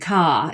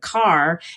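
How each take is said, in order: First: The word ends in a vowel without R. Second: The word ends with an audible R sound.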